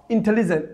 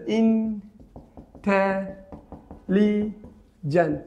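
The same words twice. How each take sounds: First: Said in the usual way. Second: intelligent very slowly in four separate beats; syllable by syllable. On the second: Shown as a demonstration. Teacher counting four syllables, very slowly broken up. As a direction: stretch each syllable of intelligent, pausing between. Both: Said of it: "চারটা".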